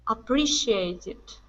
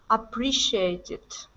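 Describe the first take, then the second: Both takes have the same delivery.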